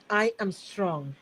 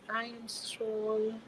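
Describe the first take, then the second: First: It is said with deep, strong feeling. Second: It is said plainly, without much feeling. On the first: The speaker calls it right. "say it with that profoundness, that level of feeling" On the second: The speaker calls it wrong. "don't say that"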